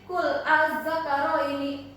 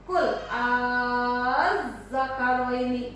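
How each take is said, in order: First: The opening vowel is short, not lengthened. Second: The opening vowel is drawn out long. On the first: The speaker calls it wrong. "membacanya jangan begini" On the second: The speaker calls it right. "harus mad dulu, panjang dulu"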